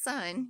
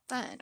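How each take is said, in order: First: The s is made crisply behind the teeth. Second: The s is made with the tongue between teeth. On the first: The speaker calls it right. "instead of sun" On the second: The speaker calls it wrong. "the tongue comes out of between the teeth"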